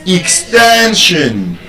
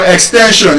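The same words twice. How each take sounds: First: "Extension" slowly, drawn out on TEN; stress on second-to-last syllable. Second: "extension" said briskly with a full "shon" ending; everyday pronunciation. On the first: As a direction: stretch TEN in "Extension", then drop on the ending. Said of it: "stress brings out the beauty". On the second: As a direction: say "extension" quickly, last syllable as "shon". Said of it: "So it's not extension". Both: Shown as a demonstration.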